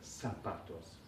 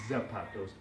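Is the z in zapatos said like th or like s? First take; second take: s; th. First: The z is said like English s. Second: The z is said like English th. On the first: The speaker calls it right. "they're zapatos" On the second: The speaker calls it wrong. "They're not zapatos"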